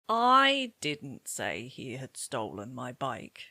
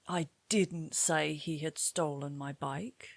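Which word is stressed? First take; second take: I; didn't. First: The word "I" carries the main stress. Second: The word "didn't" carries the main stress. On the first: It was not the speaker but somebody else who said it. "I can hear that you've stressed I" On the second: Someone claimed it was said, but it was not. "somebody claimed you said this, but in fact, you didn't"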